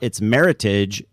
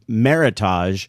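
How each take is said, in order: First: The word rhymes with heritage. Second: The word does not rhyme with heritage. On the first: The speaker calls it right. "As it turns out, it's Meritage. It rhymes with heritage" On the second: The speaker calls it wrong. "that I always pronounced for years"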